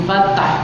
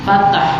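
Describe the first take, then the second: Both takes have the same delivery.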